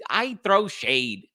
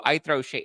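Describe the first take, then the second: First: High, slow, owning it proudly; sassy declaration. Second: Said in the usual way. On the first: Real, not acted. Proudly telling viewers he throws shade, sassy and slow. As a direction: draw out I throw shade with attitude. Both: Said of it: "That's what I do".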